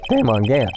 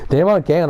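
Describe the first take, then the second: First: Voice crack. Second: Said in the usual way. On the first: Real, not acted. Naming the suspect in court, voice cracking. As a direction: voice cracking slightly mid-name. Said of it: "you hear that voice crack".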